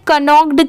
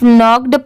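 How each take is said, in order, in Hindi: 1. इस शब्द की शुरुआत में k की आवाज़ बोली जाती है। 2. इस शब्द की शुरुआत n की आवाज़ से होती है, k साइलेंट है। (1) "इसे कनॉक्ड क्यों नहीं पढ़ेंगे, क्योंकि यहाँ पर तो के दिया हुआ है" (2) "ये साइलेंट है, इसे सिर्फ नॉक्ड पढ़ेंगे"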